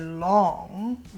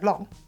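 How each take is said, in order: First: The vowel is slightly drawn out. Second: The vowel is short and plain. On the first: It makes it seem like a long time. "dragging out the vowel sound slightly" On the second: It doesn't really paint a picture. "you just say long"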